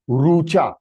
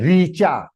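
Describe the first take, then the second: First: The first syllable sounds like 'ru'. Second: The first syllable sounds like 'ri'. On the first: This is the Sanskrit way of saying it. The speaker calls it right. "If you have to pronounce her name in Sanskritam, it will be Rucha" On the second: This is the Hindi way of saying it. The speaker calls it wrong. "they will say"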